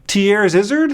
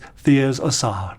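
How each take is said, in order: First: The second part sounds like 'Izzard'. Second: The second part sounds like 'Essard'. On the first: The speaker calls it wrong. "I've heard people pronounce it that way. No, it's not Thiers-Izzard" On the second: The speaker calls it right. "It's Thiers-Essard. You gotta pretend you're French"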